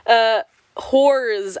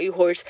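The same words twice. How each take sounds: First: "whores" said clearly as the intended word; corrected word. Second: "you horse" with the word horse said in place of whores; slurred word. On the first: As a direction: fix the slip and say "whores" properly. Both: Real, not acted.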